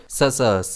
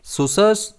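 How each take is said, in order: First: "ससर्स" slowly, with "suh" in the first syllable; second pronunciation. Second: "सुसर्स" slowly, with "su" in the first syllable; first pronunciation. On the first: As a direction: model "ससर्स" with a short uh vowel at the start. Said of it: "या फिर". ("ससर्स" धीरे, पहले अक्षर में अ की ध्वनि) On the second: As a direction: model "सुसर्स" with an oo vowel at the start. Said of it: "इसे हम कैसे प्रोनाउंस करेंगे?". ("सुसर्स" धीरे, पहले अक्षर में उ की ध्वनि) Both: Shown as a demonstration.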